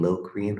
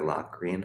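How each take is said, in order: First: First syllable of Locrian rhymes with "go"; alternative pronunciation. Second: First syllable of Locrian rhymes with "rock"; alternative pronunciation. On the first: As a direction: say Locrian as LOH-kree-un. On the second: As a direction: say Locrian as LOCK-ree-un. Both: Shown as a demonstration. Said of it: "depending on how you like to say it".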